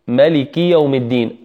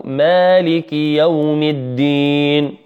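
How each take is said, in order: First: ملك with a short a after the m; "maliki", first vowel kept short; short-vowel reading. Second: مالك with a long drawn aa, "maaliki"; chanted with a lengthened alif in مالك; Hafs reading. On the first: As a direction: recite ملك quickly on its first syllable, unlengthened. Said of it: "نقول ملك". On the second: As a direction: stretch the first vowel of مالك in slow recitation. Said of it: "برواية حفص". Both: Shown as a demonstration.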